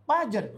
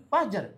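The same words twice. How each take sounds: No difference in how they are said.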